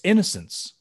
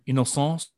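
First: The word is pronounced the English way. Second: The word is pronounced the French way.

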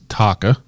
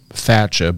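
First: The middle consonant is a 'k' sound. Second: The middle consonant is a 'ch' sound. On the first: The speaker calls it right. "apparently it's Taka" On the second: The speaker calls it wrong. "I've been pronouncing it Thatcha"

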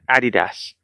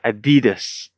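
First: It is said the British way. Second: It is said the American way. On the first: "Brits call it Adidas" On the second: "Americans call it Adidas"

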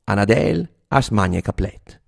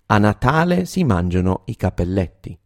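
First: It is said in Reggio Emilia dialect. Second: It is said in standard Italian.

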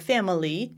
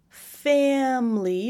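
First: The word is said with three syllables. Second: The word is said with two syllables. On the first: "You can do it in two syllables or three" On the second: "You can do it in two syllables or three"

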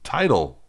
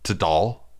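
First: The first vowel sounds like in 'tides'. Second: The first vowel does not sound like 'tides'. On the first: The speaker calls it right. "Like what tides do" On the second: The speaker calls it wrong. "saying in your head, in your internal monologue"

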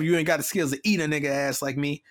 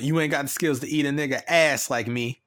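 First: The emphasis falls on the word eat. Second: The emphasis falls on the word ass. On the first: It means outperforming someone at rapping. The speaker calls it right. "like it's eat" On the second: It sounds like a literal sexual act. The speaker calls it wrong. "if he had put emphasis on eat and not ass"

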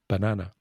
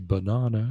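First: The word is said the non-British way. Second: The word is said the British way. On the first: This is how most Spanish speakers say it. "they'd say tomato and banana" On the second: This is how people in Britain say it. "in Britain... We say banana and tomato"

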